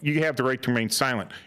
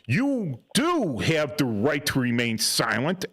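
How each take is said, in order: First: It is said lightly, brushing past the right to silence. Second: It is said firmly, pressing the right to stay silent. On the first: The listener should feel free to talk. "And if I wanted them to talk, I would be like" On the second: The listener should stay silent. "if I wanted them to evoke, you know, to evoke their um, right to remain, remain silent"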